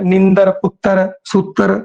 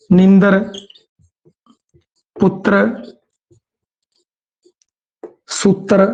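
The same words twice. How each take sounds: First: ਨੀਂਦਰ ਪੁੱਤਰ ਸੂਤਰ said slowly with a vowel before the r; careful word list. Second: ਨੀਂਦਰ ਪੁੱਤਰ ਸੂਤਰ with the r clustered, ਸੂਤਰ as sutr; conjunct r. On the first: Teacher reads example words slowly to students. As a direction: spell out each word slowly, vowel kept in. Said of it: "ਸੰਯੁਕਤ ਵਿਅੰਜਨ ਦੀ ਗੱਲ ਹੈ". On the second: Teacher demonstrates joined consonants to students. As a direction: clip the vowel so t and r join. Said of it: "ਸੂਤਰ ਹੋ ਗਿਆ". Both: Shown as a demonstration.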